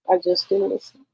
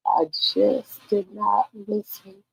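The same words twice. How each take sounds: First: Said in the usual way. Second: I JUST DID NOT LISTEN spaced out slowly; slow, word-by-word stress on "did not listen"; slow emphasis. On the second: Acted. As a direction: draw out "did not" in a slow, deliberate admission. Repeats the admission for emphasis.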